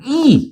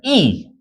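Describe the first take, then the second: First: The syllable is said on a higher pitch. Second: The syllable is said on a low pitch. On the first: It means the letter e. "영어 이는 약간 이" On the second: It means the number two. "숫자 이는 저음으로 하고"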